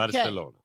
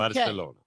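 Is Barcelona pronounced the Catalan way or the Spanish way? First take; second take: Catalan; Catalan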